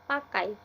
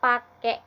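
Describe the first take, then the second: First: The word is said in its standard form. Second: The word is said in its colloquial form. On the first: The speaker calls it right. "diganti dengan kata pakai" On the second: The speaker calls it wrong. "kata pakai itu diganti"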